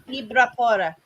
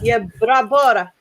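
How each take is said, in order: First: The name begins with an I sound. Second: The name begins with a Y sound. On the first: "It's often pronounced I as well" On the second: "I don't even know if you say the Y actually"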